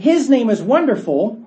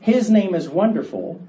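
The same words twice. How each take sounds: First: It is said excitedly, with strong emphasis. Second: It is said calmly, like a plain statement.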